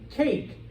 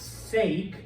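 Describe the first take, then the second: First: The word begins with a K sound. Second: The word begins with an S sound. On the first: The speaker calls it right. "a hard C, or a K sound" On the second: The speaker calls it wrong. "It's not sake"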